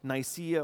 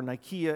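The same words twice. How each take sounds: First: It uses the common English pronunciation. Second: It uses a Greek-style pronunciation.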